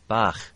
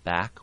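First: The word ends in a frictiony fricative sound. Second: The word ends in a plain stop sound. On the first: "will go to bach" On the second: "a word like back"

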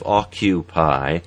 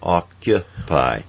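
First: The second vowel sounds more like oo. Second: The second vowel sounds more neutral and reduced.

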